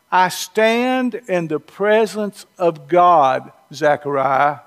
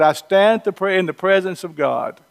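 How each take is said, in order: First: Slow, measured, formal reading of the verse; solemn scripture reading. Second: Said in the usual way. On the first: Retold or imitated. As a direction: read "I stand in the presence of God" slowly and solemnly, weight on "stand". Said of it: "Gabriel responds to Zechariah by saying". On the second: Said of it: "Remember, Gabriel said".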